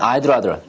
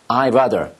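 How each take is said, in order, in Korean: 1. 'I' 뒤의 d 소리는 분명하게 발음됩니다. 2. 'I' 뒤의 d 소리는 생략됩니다. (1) "I'd rather ... 발음하는 성우도 있겠지만" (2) "이 D 발음을 거의 안 합니다"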